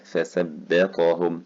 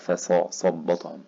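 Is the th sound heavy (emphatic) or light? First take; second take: light; heavy. First: The th sound is light and thin. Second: The th sound is heavy and emphatic. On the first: The speaker calls it right. "لازم ارقق" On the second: The speaker calls it wrong. "طلعت مني مفخمه"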